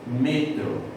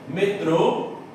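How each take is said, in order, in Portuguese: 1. A sílaba tônica é a primeira. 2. A sílaba tônica é a última. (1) "em espanhol, a sílaba tônica veio para trás, passou a ser metro" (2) "Em português, metrô, a sílaba tônica é a última"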